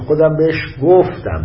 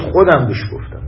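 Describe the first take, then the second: First: The stress falls on the last word. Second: The stress falls on the first word. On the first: It matters that it was told rather than given or sold. "تأکید رو گفتنش" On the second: It matters who did the telling. "یه وقت موضوعتون میگه کی بهش گفت، ... یعنی من"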